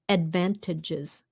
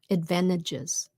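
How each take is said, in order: First: It is said slowly with a clear T. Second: It is said quickly with the T swallowed. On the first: "if you say it slowly" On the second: "Mình không có nghe cái t nó ra"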